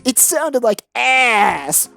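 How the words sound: It is said in a put-on imitation voice.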